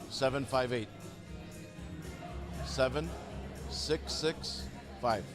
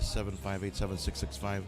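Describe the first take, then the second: First: The digits are said slowly and separately. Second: The digits are said quickly and run together. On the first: The listener can type the number correctly. The speaker calls it right. "I have to say it slowly like that" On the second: The listener mistypes the number. The speaker calls it wrong. "if I say"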